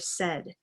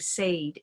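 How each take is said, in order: First: The vowel matches the vowel in 'red'. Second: The vowel differs from the vowel in 'red'. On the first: The speaker calls it right. "instead of said, se, eh, eh" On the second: The speaker calls it wrong. "if you were saying said"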